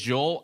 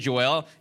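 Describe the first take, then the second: First: The name is said the non-Singaporean way. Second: The name is said the Singaporean way. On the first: "Everyone else in the world says Joel" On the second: "Singaporeans say Joel"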